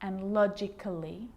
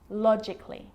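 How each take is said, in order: First: An extra vowel is pronounced before the ending. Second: The vowel before the ending is left out. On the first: The speaker calls it wrong. "So I'm not pronouncing" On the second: The speaker calls it right. "Cut the A out. Get rid of it"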